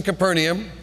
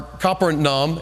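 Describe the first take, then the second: First: Said in the usual way. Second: Capernaum slowed, said the way it is in Israel; Capernaum in careful local pronunciation, roughly "Copper-nahm"; Israeli pronunciation. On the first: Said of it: "as I learned how to say it". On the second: Shown as a demonstration. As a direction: say Capernaum slowly as "Kapper-nahum". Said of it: "as I learned how to say it in Israel".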